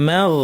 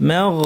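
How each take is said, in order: No difference in how they are said.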